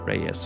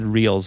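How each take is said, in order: First: The name is said like 'ray-es'. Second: The name is said like the word 'reels'. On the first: The speaker calls it right. "it's it's pronounced Reyes" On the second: The speaker calls it wrong. "What did I say? I said reels"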